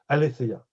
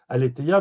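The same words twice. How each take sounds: First: The theta is said as an f-like sound. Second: The theta is said as a plain t sound. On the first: "on peut prononcer le t, le theta comme un feu" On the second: "Je disais toujours aletheia"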